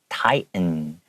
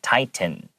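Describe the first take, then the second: First: The middle T is silent. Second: The middle T is clearly pronounced. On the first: "native English speakers will make that T completely silent" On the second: "some people might say tighten"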